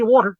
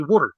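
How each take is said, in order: First: "water" with an open aw vowel; water the standard way. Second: "water" with a short oo vowel; local-style water. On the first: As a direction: say "water" as WAW-ter. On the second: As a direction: say "water" as WUH-ter, like "wood". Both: Shown as a demonstration. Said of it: "don't say water".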